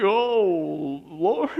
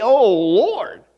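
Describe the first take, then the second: First: Soft, lower, deflated Oh, Lord; weary sigh. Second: A marveling Oh, Lord with a rising Oh; awed exclamation. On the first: Preacher to congregation, the other way: a sighing Oh, Lord. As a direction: sigh it out like giving up. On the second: Preacher to congregation, amazed Oh, Lord. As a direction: say it in awe, lifting the Oh. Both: Shown as a demonstration. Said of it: "You could say that like that too".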